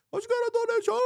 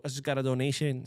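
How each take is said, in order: First: Sudden very high excited squeal; donation squeal on request. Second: Said in the usual way. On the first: Shown as a demonstration. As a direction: squeal it like a donation just came in. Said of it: "So I gotta be like". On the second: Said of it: "can you do the whole".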